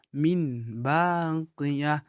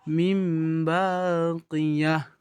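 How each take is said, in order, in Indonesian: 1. Bunyi n datang sebelum b. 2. Bunyi m datang sebelum b. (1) "Yang pada dasarnya bacaan bacaannya adalah" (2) "suaranya akan dibalikkan menjadi huruf huruf mim"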